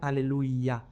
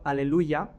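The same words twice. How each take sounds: First: The i sound is a full separate vowel. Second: The y sound is a short consonant-like glide. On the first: This is how they sing it. "la I es una vocal más" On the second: This is how we sing it. "la Y como si fuera casi como una consonante"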